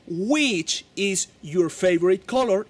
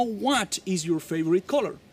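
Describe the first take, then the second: First: Slow model with weight on Which; right choice, slow. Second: Said in the usual way. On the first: Shown as a demonstration. Teacher showing the correct word to students. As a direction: stress Which slowly as the correct form. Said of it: "tú le vas a decir en ese caso". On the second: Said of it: "y no".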